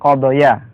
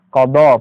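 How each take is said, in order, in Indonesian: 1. Kata ini berakhir dengan bunyi ya yang ditambahkan. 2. Kata ini berakhir dengan vokal a panjang. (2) "kita baca panjang"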